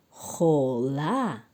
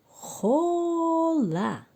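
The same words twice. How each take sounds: First: Said in the usual way. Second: خوله stretched slow and pitched much higher; drawn-out blended word. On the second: Shown as a demonstration. Teacher blending syllables for the children, slow and high. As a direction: sing out خوله slowly, rising high.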